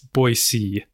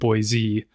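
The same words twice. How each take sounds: First: The second syllable has an s sound. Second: The second syllable has a z sound. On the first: The speaker is a local. The speaker calls it right. "B-O-I space S-E-E" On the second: The speaker is an outsider. The speaker calls it wrong. "the standard way of saying it"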